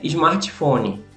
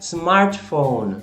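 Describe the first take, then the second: First: It is said with Brazilian-style pronunciation. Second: It is said with an English accent.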